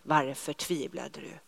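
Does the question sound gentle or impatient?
gentle. The question is asked in a soft, kind tone. The asker is caring and kind. "Jag tror att det kan ha varit och låtit ungefär så där"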